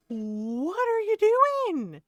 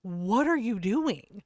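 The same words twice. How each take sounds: First: Very high, very slow, stretched out "what are you doing?"; drawn-out "what are you DOING?" in high exasperation; exasperated disbelief. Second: Said in the usual way. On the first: Shown as a demonstration.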